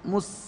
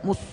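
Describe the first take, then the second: First: The s is said with relaxed, unrounded lips. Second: The s is said with lips still rounded. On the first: The speaker calls it right. "Saat sukun bibir rileks" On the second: The speaker calls it wrong. "tidak mus. Tidak begini"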